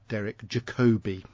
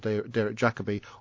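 First: The name is said the American way. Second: The name is said the British way.

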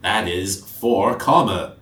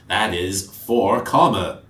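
First: It is spoken in a put-on character voice. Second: The same.

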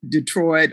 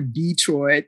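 First: The stress is on the second syllable. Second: The stress is on the first syllable.

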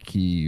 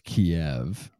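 First: The city name in its newer pronunciation. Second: The city name in its older pronunciation. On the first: This is how others now say it. "but they keep saying Kiev" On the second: This is how the speaker used to say it. "I thought it was Kiev"

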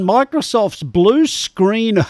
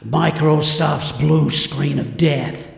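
First: It is said in his normal speaking voice. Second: It is said in a dramatic movie-trailer voice.

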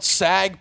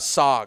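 First: The vowel sounds like the one in bag. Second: The vowel sounds like the one in log. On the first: The speaker calls it wrong. "They call it sag paneer" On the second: The speaker calls it right. "No, it's a sog"

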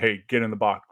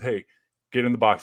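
First: It is said harshly and confrontationally. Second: It is said in a friendly, nice way.

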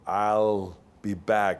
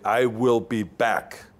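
First: The words I will are contracted. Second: The words I will are said in full. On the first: It sounds weak, not like a machine. The speaker calls it wrong. "This sounds weak" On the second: It sounds strong, like a machine. The speaker calls it right. "I would say, I will be back"

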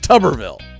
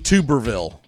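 First: The first syllable sounds like 'tub'. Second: The first syllable sounds like 'tube'. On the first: The speaker calls it right. "It's Tuberville" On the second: The speaker calls it wrong. "It's not Tommy Tuberville"

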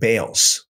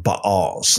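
First: The word is pronounced the usual English way. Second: The word is pronounced the Hebrew way.

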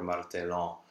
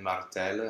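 First: The word ends in a nasal vowel. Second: The word ends in a weak schwa sound. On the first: The speaker calls it wrong. "It's not an anasal, which is usually what people try to do here" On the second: The speaker calls it right. "then you know that ENT is actually just a schwa"

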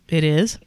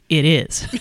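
First: The voice rises at the end like a question. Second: The voice falls at the end like a statement. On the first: It asks whether something is true. The speaker calls it wrong. "I didn't mean to say that as a question" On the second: It asserts that something is true. The speaker calls it right. "I meant to say it as a statement"

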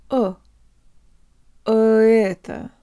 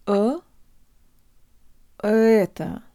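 Both takes have the same delivery.

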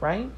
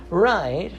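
First: The voice rises at the end like a question. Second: The voice falls at the end like a statement. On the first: Asking the listener for confirmation. The speaker calls it wrong. "I guess right wasn't the right inflection" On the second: Asserting that the point is correct. The speaker calls it right. "I'm correct"

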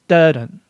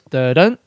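First: The stress falls on the first beat. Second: The stress falls on the second beat.

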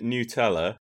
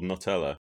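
First: The first syllable sounds like 'noo'. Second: The first syllable sounds like 'nut'. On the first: This is the name as the company says it. The speaker calls it right. "if you go anywhere else in the world, they pronounce it Nutella" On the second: This is the name as said in one country. The speaker calls it wrong. "because we figure it's got nuts in it, so it's called Nutella"

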